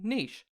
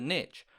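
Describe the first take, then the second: First: The word ends with a soft sound. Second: The word ends with a hard sound. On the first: "the more flaccid and less intimidating niche" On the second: "the harder niche"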